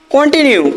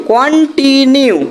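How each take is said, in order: First: Said in the usual way. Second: continue slowly split into কন, টি, নিউ; three syllables. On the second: Shown as a demonstration. Teacher showing three syllables form, continue syllable by syllable. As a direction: draw out each part of continue. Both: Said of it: "তিনটে দল তৈরি হচ্ছে".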